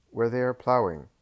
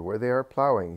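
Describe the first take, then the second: First: Lie it away with a shrug in the voice; evasive landowner. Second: Insistent landowner. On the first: Doris answers evasively. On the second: Doris repeats his lie. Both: A narrator's reading.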